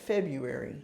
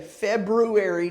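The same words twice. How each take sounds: First: The first R sound is left out. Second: The first R sound is clearly pronounced. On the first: The speaker calls it right. "I think you meant February" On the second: The speaker calls it wrong. "say February to somebody"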